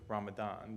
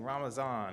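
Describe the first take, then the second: First: The middle consonant is a d sound. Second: The middle consonant is a z sound. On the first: This is the more widely known form. "instead of Ramadan" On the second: This is the form used where Arabic is not dominant. "Ramazan is the pronunciation of Ramadan that is used in my Chishti Sufi lineage"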